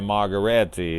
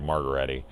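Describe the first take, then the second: First: Said in the usual way. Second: "Margheriti" in a lazy low drawl, vowels dragged out; Kurt Russell drawl. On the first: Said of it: "he's not really saying Margheriti". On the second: Retold or imitated. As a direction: drawl the word "Margheriti" lazily, pitched lower. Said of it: "Kurt Russell say it in his, uh, drawl".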